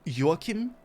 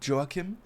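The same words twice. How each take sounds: First: The name is said with a Nordic pronunciation. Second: The name is said with an English pronunciation. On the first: "if you want to go with a Nordic accent" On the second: "but you can say Joachim"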